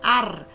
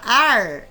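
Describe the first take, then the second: First: The r is made with the tongue tip vibrating. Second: The r is made with the tongue curled back. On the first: "a língua vai tremer lá na, na, em cima" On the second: "a língua vai dobrar lá para trás"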